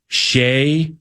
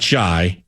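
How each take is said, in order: First: The name rhymes with day. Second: The name rhymes with shy. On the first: The speaker calls it right. "When it comes to Shai" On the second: The speaker calls it wrong. "not Shy"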